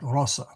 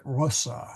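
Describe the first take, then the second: First: Rossa with the short O kept. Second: Rossa with a short, clipped O. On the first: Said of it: "I so want to put a long O there". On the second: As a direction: say rossa with a short O, not rose. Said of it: "that O is actually short". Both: Shown as a demonstration.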